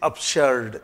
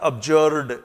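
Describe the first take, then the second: First: The middle consonant is a hissing s sound. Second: The middle consonant is a buzzing z sound. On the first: The speaker calls it right. "शर्ड clear लिखा है" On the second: The speaker calls it wrong. "It's not अब्जर्ड"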